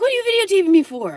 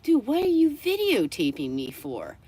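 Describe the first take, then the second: First: High, loud, fast reenacted yell; shouted challenge. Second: Higher-pitched, incredulous retort; exasperated challenge. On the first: Beachgoer confronting dog owner who is filming, reenacted outraged yell. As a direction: fire the question off in a shriek. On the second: Retold or imitated. Beachgoer asks dog owner about filming, reenacted exasperated challenge. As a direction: act out confronting someone without shouting.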